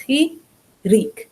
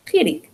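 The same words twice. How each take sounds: First: "Chirik" split in two, high, chi... rik; syllable by syllable. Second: "Chirik" run together quickly and high; whole word. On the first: Teacher showing how to say it, syllables separated. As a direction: sound out "Chirik" slowly with a break between syllables. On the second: Teacher putting the word together for learners, syllables joined. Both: Shown as a demonstration. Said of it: "tells you how to say it".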